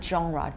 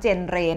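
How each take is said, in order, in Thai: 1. คำนี้ออกเสียงแบบฝรั่งเศส 2. คำนี้ออกเสียงตามตัวสะกด แบบอังกฤษ (1) "อ่านออกเสียงว่า ... มันมาจากภาษาฝรั่งเศส" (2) "ตัวนี้ไม่อ่านออกเสียงว่า"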